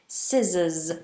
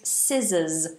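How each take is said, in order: The two takes are said the same way.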